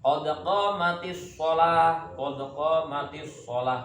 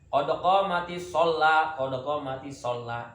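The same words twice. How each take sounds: First: Slow chanted qad qamati sholah, single l in sholah; correct iqamah. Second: Mock the muezzin's sholah with a doubled l; imitating wrong iqamah. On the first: Shown as a demonstration. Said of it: "Bukan qad qamati sholah". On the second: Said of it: "Itu salah".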